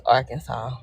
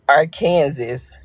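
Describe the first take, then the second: First: Said in the usual way. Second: Arkansas said slowly as "ar-KAN-zis"; mispronounced Arkansas. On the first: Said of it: "it's Arkansas". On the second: Retold or imitated. Correcting people who misname the home state, mispronounced Arkansas. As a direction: say Arkansas like "Kansas", drawn out with a z. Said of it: "'Cause they be saying".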